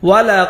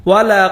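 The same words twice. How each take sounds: The two takes are said the same way.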